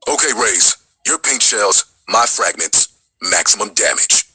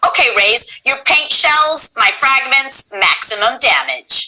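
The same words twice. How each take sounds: First: A touch lower, steady soldier; original KO line. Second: Lightly voiced game line; KO's line. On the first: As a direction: deliver it like a calm teammate. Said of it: "Do you remember that?". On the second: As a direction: read the battle line calmly. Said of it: "K O says to". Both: Shown as a demonstration.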